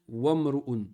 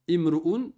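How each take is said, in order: First: The opening vowel sound is dropped and linked over. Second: The opening vowel sound is pronounced on its own. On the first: The word does not start the phrase. "tu ne tu le prononces pas. Tu fais une liaison" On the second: The word starts the phrase. "Au début de la phrase, tu le prononces"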